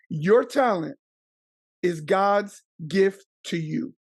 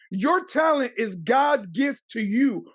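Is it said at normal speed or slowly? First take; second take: slowly; normal speed. First: It is said more slowly. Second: It is said at normal speed.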